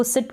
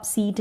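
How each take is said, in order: First: "सिट" with a short i; a quick, short vowel in "सिट". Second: "सीट" with a long ee; stretched ee vowel in "सीट". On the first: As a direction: say "सिट" like English "sit". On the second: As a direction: say "सीट" like English "seat". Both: Shown as a demonstration. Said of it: "सिट को आप सीट नहीं पढ़ेंगे".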